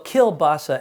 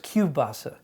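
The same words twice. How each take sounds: First: The middle consonant is pronounced as an L. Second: The middle consonant is pronounced as a W. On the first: The speaker calls it wrong. "it's wrong" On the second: The speaker calls it right. "the L sound is a W"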